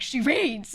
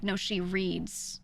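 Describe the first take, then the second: First: Loud, higher mock exasperated insistence; imitating a fed-up father; pissed-off dad. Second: Said in the usual way. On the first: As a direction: burst out with it, proving a point. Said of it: "He was just so pissed". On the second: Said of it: "my parents were like".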